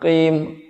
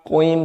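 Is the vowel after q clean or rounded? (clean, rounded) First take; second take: clean; rounded. First: The vowel is a clean i without rounding. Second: The lips round, coloring the vowel toward o. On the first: The speaker calls it right. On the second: The speaker calls it wrong. "tidak perlu sampai pembulatan sebelum mengucapkan qaf"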